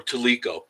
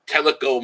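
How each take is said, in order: First: "Teleco" said tuh-LEE-ko; second-syllable stress. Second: "Teleco" said TELL-uh-ko; first-syllable stress. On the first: Streamer offering the other name, tuh-LEE-ko pronunciation. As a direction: stress the middle of "Teleco", long ee. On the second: Streamer naming Teleco Mountains, TELL-uh-ko pronunciation. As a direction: stress the opening of "Teleco", short e. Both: Shown as a demonstration. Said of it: "Some people I've heard it say Teleco".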